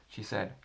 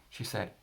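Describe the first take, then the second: The two takes are said the same way.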